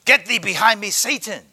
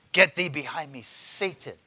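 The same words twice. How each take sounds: First: Loud stern rebuke of Satan; the Lord's loud rebuke; rebuking voice. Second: Said in the usual way. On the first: Acted. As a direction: command him away, hard and loud. Preacher voicing the Lord rebuking.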